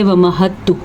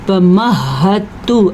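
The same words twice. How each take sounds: First: The 'h' sound is short and single. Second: The 'h' sound is held and doubled. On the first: The speaker calls it wrong. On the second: The speaker calls it right.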